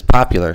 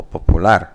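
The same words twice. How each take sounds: First: "popular" as English POP-ular; stress on first syllable. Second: "popular" as Spanish po-pu-LAR; stress on last syllable. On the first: Teacher giving the English example, first-syllable stress on "popular". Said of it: "the stress is, excuse me, is on the first syllable". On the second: Teacher contrasting Spanish with English, end-stressed "popular". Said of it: "it's the last syllable". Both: Shown as a demonstration.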